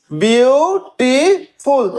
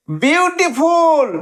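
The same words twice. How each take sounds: First: beautiful split very slowly into three separate beats; syllable by syllable. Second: beautiful stretched slowly in one joined, high-pitched run; whole word, drawn out. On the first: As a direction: count out beautiful as beau, ti, ful with clear gaps. (Beautiful খুব ধীরে, তিন সিলেবলে কেটে কেটে) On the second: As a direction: say beautiful high and unbroken, lengthening it. (Beautiful উঁচু সুরে, টেনে, না ভেঙে) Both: Shown as a demonstration. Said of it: "তিনটে সিলেবল".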